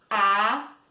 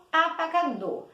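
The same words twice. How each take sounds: First: "Apagador" with long gaps, A, PA, GA, DOR; four separate beats in "Apagador"; syllable by syllable. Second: Said in the usual way. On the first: Shown as a demonstration. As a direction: say "Apagador" one syllable at a time. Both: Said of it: "Quatro sílabas".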